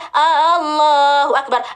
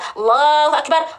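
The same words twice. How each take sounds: First: The first vowel of Allahu is drawn out long. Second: The first vowel of Allahu is kept short. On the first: It asks whether God is great. The speaker calls it wrong. "Gak boleh baca Allahu Akbar" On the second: It states that God is great. The speaker calls it right. "Jadi yang benar gimana Ustazah?"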